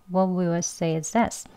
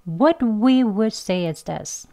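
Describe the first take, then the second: First: Softer, 'What we will' as 'wuh wih wuhd'; slow weak forms. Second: Slow, rounded full 'What we would'; slow strong forms. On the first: English teacher models the relaxed sentence, weak forms. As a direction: keep the lips slack, slowly reduced. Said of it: "천천히 해볼게요". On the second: English teacher leads slow practice, strong forms. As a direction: round the lips on each w, slowly. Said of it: "이렇게 천천히요". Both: Shown as a demonstration.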